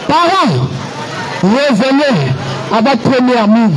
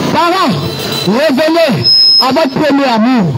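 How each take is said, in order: Both takes have the same delivery.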